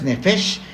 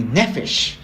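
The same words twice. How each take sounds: First: "Nefesh" with the weight on its final syllable, neFESH; stress on last syllable. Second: "Nefesh" with the weight up front, NEfesh; stress on first syllable. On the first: Teacher showing a wrong accent, stressing the end of "Nefesh". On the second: Teacher showing a wrong accent, stressing the start of "Nefesh". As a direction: punch the opening of "Nefesh". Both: Shown as a demonstration. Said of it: "No tiene acento, no es".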